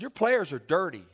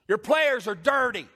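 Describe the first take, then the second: First: It is said firmly but not yelled. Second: It is yelled loudly and forcefully. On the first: "the truth lies somewhere in the middle" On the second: "I didn't yell it like that, but I just wanted you to"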